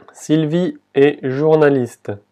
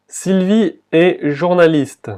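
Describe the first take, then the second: First: Sylvie est journaliste slow, est said as plain E with no T; slow repeat. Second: Sylvie est journaliste said slowly, est as open e; slow, careful French Sylvie est journaliste; slow model French. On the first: Teacher repeating for pronunciation, slowly. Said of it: "la T aquí no se pronuncia". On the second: Teacher modelling the French sentence, slowly. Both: Shown as a demonstration.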